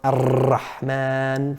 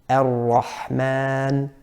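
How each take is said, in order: First: The r is trilled with strong, continuous vibration. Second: The r is a light tap without excess vibration. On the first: The speaker calls it wrong. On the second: The speaker calls it right.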